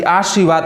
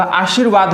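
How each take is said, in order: First: आशीर्वाद said as आर्शीवाद; wrong pronunciation. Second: आशीर्वाद with र after शी; correct pronunciation. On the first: Teacher showing the children the wrong आशीर्वाद. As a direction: put the र after आ in आशीर्वाद. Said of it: "आशीर्वाद गलत है". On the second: Teacher giving the children the right आशीर्वाद. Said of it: "आशीर्वाद हमारा सही होगा". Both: Shown as a demonstration.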